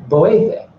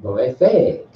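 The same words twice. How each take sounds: First: Boefe stressed on its middle syllable; stress inside boefe. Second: Boefe with weight on its last syllable; stress ending boefe. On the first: Teacher contrasts two marks for class, middle-stressed boefe. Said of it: "as opposed to the". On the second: Teacher shows the little mark, end-stressed boefe. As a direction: lean on the final syllable of boefe. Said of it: "with this little mark right here". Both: Shown as a demonstration.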